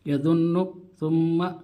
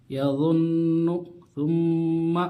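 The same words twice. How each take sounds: First: यज़ुन्नु and सुम्मा said quickly, the doubled न and म clipped short; quick यज़ुन्नु, सुम्मा without nasal hold; rushed, no ghunna. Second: यज़ुन्नु and सुम्मा unhurried, the doubled न and म held through the nose; calm, correct ghunna on यज़ुन्नु, सुम्मा; slow ghunna. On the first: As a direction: demo the wrong, hurried यज़ुन्नु, सुम्मा. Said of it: "इस तरह जल्दी पढ़ते हैं". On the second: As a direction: show the right way: take time on the nasal of यज़ुन्नु, सुम्मा. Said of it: "जल्दी नहीं, आराम से गुन्ना करके". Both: Shown as a demonstration.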